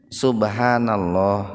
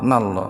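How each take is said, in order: First: All four syllables are said in full. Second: The first two syllables are dropped, leaving two. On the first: The speaker calls it right. "jadi kudu bener kalimatna" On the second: The speaker calls it wrong. "Aya nu"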